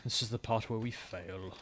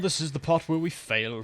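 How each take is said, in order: First: Quiet, slow resigned aside; resigned repeat. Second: Loud, slow doom announcement; dramatic announcement. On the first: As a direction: mutter it to yourself, defeated. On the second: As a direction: call it out like a disaster is coming. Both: Real, not acted.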